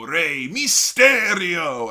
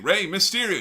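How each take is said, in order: First: The name is said with a Spanish accent. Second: The name is said with an English accent. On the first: "he's putting a little Spanish on it" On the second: "instead of saying Ray Mysterio"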